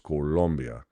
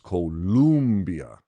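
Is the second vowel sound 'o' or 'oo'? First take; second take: o; oo. First: The second vowel is an 'o' sound. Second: The second vowel is an 'oo' sound. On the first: This is the name of the country. The speaker calls it right. "In C O L O, which is how the country is spelled, it's Colombia" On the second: This is the misspelled form with U. The speaker calls it wrong. "This way, they would pronounce it as Columbia"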